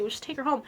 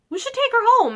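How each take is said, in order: First: Said in the usual way. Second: High, louder burst of enthusiasm; eager suggestion. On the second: Retold or imitated. Mom retelling the orphanage visit, eagerly suggesting. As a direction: pitch up as if struck by a lovely idea. Retold mom deciding to adopt.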